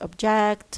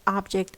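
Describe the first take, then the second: First: The word carries the stress pattern of the verb. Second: The word carries the stress pattern of the noun. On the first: The word is a verb. "object as a verb" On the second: The word is a noun. "object as a noun"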